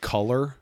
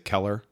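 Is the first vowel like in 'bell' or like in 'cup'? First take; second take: cup; bell. First: The first vowel sounds like in 'cup'. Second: The first vowel sounds like in 'bell'. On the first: This is the usual way others say it. "Instead of color" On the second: This is the speaker's own regional way. "I say Keller"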